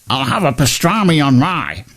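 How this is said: It is said in a northern English accent.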